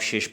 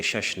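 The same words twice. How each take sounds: First: شش said "shesh" with short e; both sh sounds crisp in شش; Persian shesh. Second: شش said "shash" with open a, the wrong way. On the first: Teacher models Persian شش as "shesh". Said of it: "اس کو آپ شش پڑھیں گے". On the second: Teacher shows the mistake شش, "shash". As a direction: say شش with a flat "a". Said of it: "شش نہیں پڑھیں گے". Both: Shown as a demonstration.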